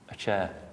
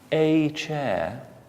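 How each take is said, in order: First: The article is said with a weak 'uh' vowel. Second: The article is said with a full 'ay' vowel. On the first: It sounds like ordinary everyday speech. The speaker calls it right. "we'll say a chair. Not a, uh, a" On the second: It sounds formal and upper-class. The speaker calls it wrong. "which is what the Queen would say"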